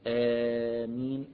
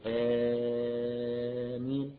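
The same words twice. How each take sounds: First: The first vowel is held for four counts. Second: The first vowel is held for six counts. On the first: "أربع حركات" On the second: "ست حركات"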